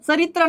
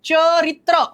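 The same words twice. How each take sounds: First: The first consonant is a dental ts sound. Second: The first consonant is a palatal ch sound. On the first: The speaker calls it wrong. "चरित्र नाही" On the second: The speaker calls it right. "तालव्य"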